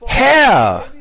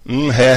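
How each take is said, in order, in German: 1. Es wird intensiv gesagt, mit voller Kraft. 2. Es wird beiläufig gesagt, ohne viel Gefühl. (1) "Sondern es ist so, Herr! Mit allem, was du hast" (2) "Also es ist nicht so"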